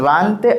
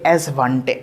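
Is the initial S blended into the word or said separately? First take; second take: blended; separately. First: The S blends straight into the word. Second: The S is said as a separate letter. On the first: The speaker calls it right. "ये है Svante Arrhenius" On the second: The speaker calls it wrong. "आप इसको ऐसे नहीं पढ़िएगा"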